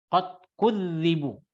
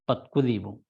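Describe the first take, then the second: First: The dh consonant is held long, doubled. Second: The dh consonant is short, not doubled. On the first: They were accused of lying by their people. "di ditasdidkan dzanya" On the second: They were lied to by their people. "dalam qiraat kita qiraat Asim ini"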